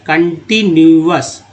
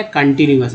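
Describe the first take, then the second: First: continuous slowly split as con-ti-nu-ous; syllable by syllable. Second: Said in the usual way. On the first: Shown as a demonstration. Teacher showing the parts to learners, continuous slow and divided. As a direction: draw out each part of continuous. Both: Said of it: "तो कन एक part है".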